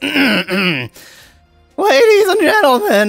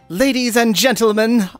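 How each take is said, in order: First: It is said in a put-on female voice. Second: It is said in his natural voice.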